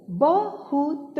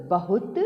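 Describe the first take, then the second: First: बहुत in slow, higher pieces, ब, हु, त; syllable by syllable. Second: Said in the usual way. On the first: Shown as a demonstration. Teacher reading the paragraph word बहुत, syllable by syllable. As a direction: sound out बहुत letter by letter. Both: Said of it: "अब इसे पढ़ते हैं".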